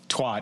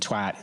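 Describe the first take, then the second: First: The word is said with an American pronunciation. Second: The word is said with a British pronunciation. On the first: "twat in America" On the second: "twat in the U K"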